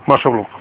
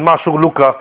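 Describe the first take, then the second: First: The word ends without the final vowel. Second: The word ends with a final vowel sound.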